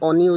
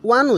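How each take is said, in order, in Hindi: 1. यह शब्द स्वर ध्वनि से शुरू होता है। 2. यह शब्द 'w' ध्वनि से शुरू होता है। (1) "অ এন ই অনি উচ্চাৰণ হোৱা নাই" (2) "অ এন ই ওৱান উচ্চাৰণ হৈছে"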